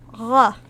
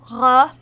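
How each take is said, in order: First: "r" as a smooth friction sound at the back of the throat, no trill; uvular fricative. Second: "r-" trilled at the back of the throat by mistake; a quick uvular trill on "r-", cut off. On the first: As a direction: breathe "r" as a uvular fricative, French-style. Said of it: "the uvular fricative". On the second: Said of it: "I accidentally did a uvular trill". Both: Shown as a demonstration.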